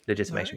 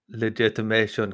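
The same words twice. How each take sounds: First: It is said in the speaker's usual plain accent. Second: It is said in a put-on South African accent.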